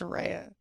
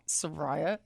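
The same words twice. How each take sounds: First: The middle syllable sounds like 'ray'. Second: The middle syllable sounds like 'rye'. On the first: The speaker calls it right. "it's Soraya. Ray of Sunshine" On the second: The speaker calls it wrong. "it's not Soraya / pronounce like the R A Y as like rye"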